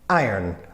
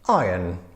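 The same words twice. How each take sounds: First: It is said with a Polish accent. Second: It is said with a British accent. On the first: "Polish people very often say iron" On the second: "the British pronunciation sounds something"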